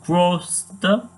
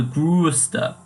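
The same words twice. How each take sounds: First: Slow "Größter" with a plain O, like "groster"; missing umlaut. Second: Slow "größter" with a long rounded ö, like "grooster"; emphasized O umlaut. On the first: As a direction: demonstrate "Größter" wrongly, umlaut left off. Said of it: "so you can see the improvement". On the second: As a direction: lean hard on the umlaut in "größter". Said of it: "that extra emphasis on the O". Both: Shown as a demonstration.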